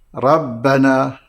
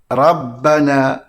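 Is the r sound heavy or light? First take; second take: light; light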